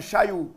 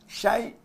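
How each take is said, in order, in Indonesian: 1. Suku katanya berakhir dengan 'ayu' membulat. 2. Suku katanya berakhir dengan 'ai' biasa. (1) "jangan syayu"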